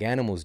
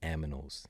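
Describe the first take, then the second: First: The n and m sounds are in order. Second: The m and n sounds are swapped.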